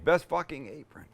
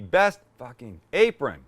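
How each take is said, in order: First: The word fucking is loud; apron is quieter. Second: The word apron carries the main stress. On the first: The speaker calls it wrong. "I said fucking quite loud and I toned it back on apron" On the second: The speaker calls it right. "Should be"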